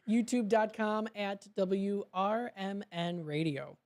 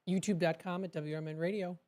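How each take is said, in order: First: It is said more slowly. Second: It is said very fast.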